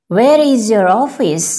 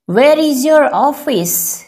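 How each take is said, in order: First: Said in the usual way. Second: Slow and careful, each word laid out; slow teaching take. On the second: Shown as a demonstration. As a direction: say it slowly for learners to copy. (धीरे और साफ़ बोलें) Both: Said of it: "teacher repeats sentence twice".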